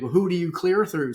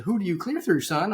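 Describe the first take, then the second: First: Said in the usual way. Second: Mock a Georgia lady asking who he clears through; deliberately bad Georgia accent, lightly done; horrible Georgia accent. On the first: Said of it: "I'll do a horrible South Jer". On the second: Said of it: "uh, Georgia accent".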